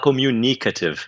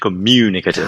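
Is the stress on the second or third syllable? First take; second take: third; second. First: The stress is on the third syllable. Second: The stress is on the second syllable. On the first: This is how a Brazilian speaker tends to say it. The speaker calls it wrong. "o brasileiro quer falar communicative" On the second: This is the standard English pronunciation. The speaker calls it right. "em vez de communicative"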